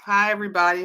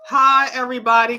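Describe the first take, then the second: First: Said in the usual way. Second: Higher, louder, quick hello to everyone; loud greeting. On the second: Real, not acted. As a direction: boom the hello out to the room. Greeting viewers twice.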